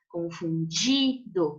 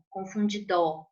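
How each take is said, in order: First: The stress is on the syllable di. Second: The stress is not on the syllable di. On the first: The speaker calls it right. "Essa é a mais forte" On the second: The speaker calls it wrong. "Não"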